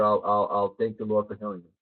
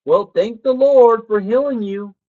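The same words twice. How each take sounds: First: Low, soft, stammering grudging repeat; reluctant sick kid. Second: Higher, louder and slow, a mother's firm faith; insistent mom. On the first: Sick kid repeating mom's words to her, grudgingly low. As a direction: mumble it like a kid humoring his mom. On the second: Mom telling her sick son to thank the Lord, firm and loud. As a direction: proclaim it like a devout mom. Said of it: "my mom would say". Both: Retold or imitated.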